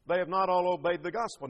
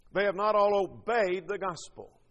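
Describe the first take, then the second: First: Not leaned on with a falling close; preacher rereading the verse, weight on not; stress on NOT. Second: All leaned on with a falling close; preacher rereading the verse, weight on all; stress on ALL. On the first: Hit not, then let the line fall. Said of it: "The term obey is synonymous". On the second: Stress all, then let gospel fall. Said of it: "underline the word obeyed". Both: Shown as a demonstration.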